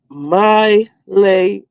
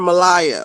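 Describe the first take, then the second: First: The name begins with the sound 'my'. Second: The name begins with the sound 'ma'. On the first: The speaker calls it right. "It says my Leia" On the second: The speaker calls it wrong. "I used to call her Malaya, like Mariah"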